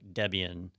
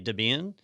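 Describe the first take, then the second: First: The word is said as 'Deb' plus 'Ian'. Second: The word is said as one blended word. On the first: "it should like really be like Debian" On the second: "so I usually say Debian"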